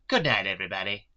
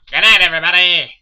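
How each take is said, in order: First: It is said in an ordinary reading voice. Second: It is said in an imitated cartoon-character voice. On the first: "I said that wrong" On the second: "That was the worst Yakko impression ever"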